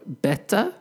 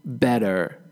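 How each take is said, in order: First: British "better", crisp T and no final R; British pronunciation. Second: American "better", T softened to D; American pronunciation. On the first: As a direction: sound the T in "better" like a Briton. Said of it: "is British English". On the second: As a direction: say "better" as "bedder", with a final R. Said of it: "is American English". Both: Shown as a demonstration.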